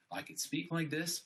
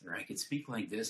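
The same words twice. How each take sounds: First: Higher, squeezed voice from a slumped chest; slouched voice. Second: Said in the usual way. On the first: Shown as a demonstration. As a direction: speak hunched over, chest closed.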